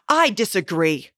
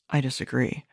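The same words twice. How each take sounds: First: It is said in a loud, raised voice. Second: It is muttered quietly under the breath.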